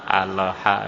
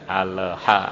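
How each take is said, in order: The two takes are said the same way.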